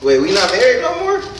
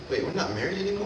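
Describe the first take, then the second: First: The voice sounds happy and excited. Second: The voice sounds concerned and disbelieving. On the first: The speaker seems glad not to be married. The speaker calls it wrong. "it sounded like you was excited to not be married no more" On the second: The speaker seems upset not to be married. The speaker calls it right. "I was like this"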